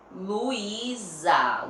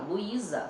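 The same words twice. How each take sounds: First: "Luísa" drawn out with a long buzzing Z; Z sound shown. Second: Said in the usual way. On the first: Shown as a demonstration. Teacher testing the word for a Z sound, drawn out. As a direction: stretch each syllable of "Luísa". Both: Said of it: "Olha o som da palavra".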